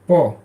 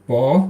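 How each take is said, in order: First: The syllable has a sharply falling pitch. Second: The syllable has a rising pitch.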